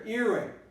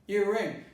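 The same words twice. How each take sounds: First: The stress is on the first syllable. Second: The stress is on the second syllable. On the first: The speaker calls it right. "the stress is here" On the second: The speaker calls it wrong. "they transform ring into a verb"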